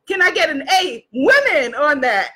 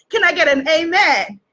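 First: "A women" split and stressed like "amen". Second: Said in the usual way. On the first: Shown as a demonstration. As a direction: punch "women" as a pun on "amen".

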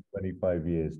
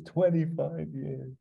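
First: Said in the usual way. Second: Higher, slow echo of the line; slow wistful echo. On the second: Retold or imitated. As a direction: stretch it out, higher and slower. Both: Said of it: "repeated in different voice".

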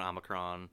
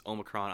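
First: "Omicron" starting with an open AH; short O Omicron. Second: "Omicron" starting with a long OH. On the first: Showing Star Trek's other way, "Omicron" with open AH. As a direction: say "Omicron" as AH-muh-cron. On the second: Showing Star Trek's ways of saying it, "Omicron" with long O. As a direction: say "Omicron" as OH-muh-cron. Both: Shown as a demonstration. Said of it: "several ways of pronouncing it".

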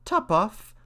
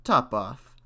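First: High mouse exclamation; crying out, mouse. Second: Slow, cool answer; cool cat. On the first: Mouse reacts to the odd name, high cry. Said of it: "cried the mouse". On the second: Cat names the godchild to the mouse, coolly. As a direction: drop it coolly and slowly, as the cat. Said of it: "said the cat quite coolly". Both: A narrator's reading.

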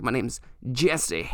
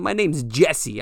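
First: Slow and softer, spelling out the fake name; slow, deliberate. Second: Said in the usual way. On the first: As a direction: lay the fake name down slowly. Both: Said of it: "So that's what I said to him".

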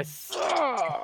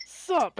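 First: "my sup" stretched out slowly; drawled own sup; slow drawn sup. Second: Quick high imitated sup. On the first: Retold or imitated. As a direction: let "my sup" drag. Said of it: "you hear the little sup". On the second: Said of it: "It's like".

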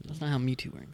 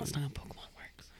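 First: Said in the usual way. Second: Hushed whispered correction; breathy aside under the breath. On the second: Real, not acted.

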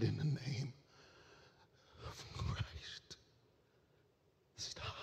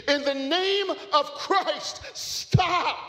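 First: Fading to a breathy, near-silent whisper; last words with the final breath; dying gasp. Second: Far higher, loud, slow cry; climactic yell. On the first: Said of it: "he gasped breath one last time". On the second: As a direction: cry it out at the peak of the story. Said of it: "once again repeated". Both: Acted.

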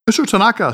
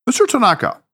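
First: A touch of irritation; clipped-off annoyed address; irritated. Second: Mister pitched high, then a cool falling address; "Mister Tanaka" said formally, composed and even; businesslike address, a hint of strain; neutral professional tone. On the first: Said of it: "said Harry in an irritated tone". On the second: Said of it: "his most neutral professional tone". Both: A narrator's reading.

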